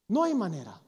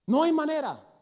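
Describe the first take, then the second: First: Said in the usual way. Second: "hay" punched high and loud with a falling end; loud, emphatic preacher's no; emphatic denial. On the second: Real, not acted. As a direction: declare it forcefully to the congregation.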